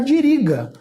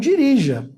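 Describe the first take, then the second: First: The last consonant is a hard G sound. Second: The last consonant is a soft J sound. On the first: The speaker calls it wrong. "E não é esse o som do verbo" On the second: The speaker calls it right. "vai ter um J no lugar"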